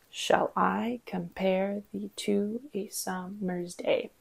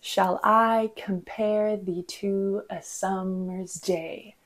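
First: "Shall I compare thee to a summer's day" slow and soft, split into beats; syllable-by-syllable rhythm. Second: "Shall I compare thee to a summer's day" slow, every second syllable stressed; measured weak-strong beats through "Shall I compare thee to a summer's day"; iambic heartbeat rhythm. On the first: Counting ten syllables in five groups, syllable-by-syllable rhythm. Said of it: "this one line has ten syllables". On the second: Clear example from a Shakespeare sonnet, iambic heartbeat rhythm. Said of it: "gives us that iconic heartbeat". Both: Shown as a demonstration.

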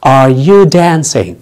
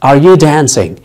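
First: Each word drawn out slowly; slow teaching model of Are you dancing; slow demo. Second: Said in the usual way. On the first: Shown as a demonstration. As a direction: say it slowly so students can follow. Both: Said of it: "هل أنت بترقص؟".

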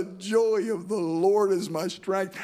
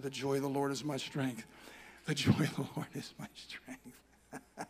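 First: Slow, lifted and glad; same words now rejoicing; joyful proclamation. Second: Soft, low, slow self-encouragement; a hushed reminder, said slowly; quiet murmured prayer. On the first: Acted. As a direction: declare it with new joy. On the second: Retold or imitated. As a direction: murmur it to yourself in the car. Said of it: "I said".

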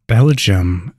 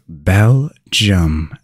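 First: Said in the usual way. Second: Belgium said slowly in two separated syllables; slow, syllable-by-syllable Belgium for learners; pronunciation demo. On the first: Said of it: "teaching you how to pronounce". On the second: Shown as a demonstration. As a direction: break Belgium into "Bel" and "gium", drawn out. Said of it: "You now know how to pronounce".

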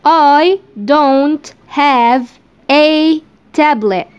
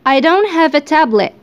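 First: I don't have a tablet drawn out word by word, very slow; slow dictation. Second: Said in the usual way. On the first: Shown as a demonstration. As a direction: dictate each word slowly for learners. (نطق بطيء جدًا كلمة كلمة)

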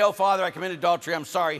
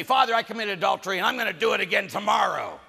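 First: Quick, lightly acted confession; acted apologetic penitent. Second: Loud, higher brazen confession; acted unrepentant penitent. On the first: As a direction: blurt out a sorry confession. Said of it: "he should be very gentle with you". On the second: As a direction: announce the sin without remorse. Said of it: "Father should not yell at you".

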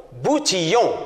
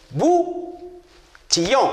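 First: Said in the usual way. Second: BOUTILLON slowly, long gap after "bou"; split into syllables. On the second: Shown as a demonstration. Teacher tapping out syllables for pupils, Boutillon broken after "bou". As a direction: tap out Boutillon, pausing between "bou" and "tillon". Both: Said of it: "Alors tapez".

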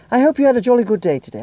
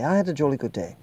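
First: Jolly cheerful. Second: Said in the usual way. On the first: Acted. Cheery sign-off to viewers.

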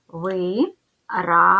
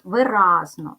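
First: «Виразно» said slowly as ви-раз-но, with a clear break between syllables; split into syllables. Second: «Виразно» with the second syllable РАЗ hit clearly: ви-РАЗ-но; stress on the second syllable. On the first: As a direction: spell out «Виразно» syllable by syllable, slow. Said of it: "Ділимо на склади". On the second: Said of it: "Ставимо наголос". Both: Shown as a demonstration.

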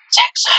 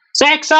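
First: Said in the usual way. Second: High voice cracking on a shout; strained cry that breaks; strangled voice. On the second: Real, not acted. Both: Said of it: "No me sale la voz ahora".

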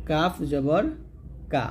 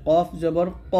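First: "কাফ জবর কা" with a light k; thin Kaf. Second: "কফ জবর ক" with a back q and rounded vowel; heavy Qaf. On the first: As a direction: open "কা" lightly, without rounding. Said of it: "পাতলা". ("কা" পাতলা করে) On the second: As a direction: make "ক" full, from the back of the mouth. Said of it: "কফটা আপনাকে মোটা করে উচ্চারণ করতে হবে". ("কফ" মোটা করে) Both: Shown as a demonstration.

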